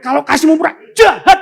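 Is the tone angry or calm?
angry. It is said in an angry, scolding tone.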